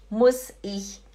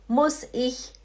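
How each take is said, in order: Both takes have the same delivery.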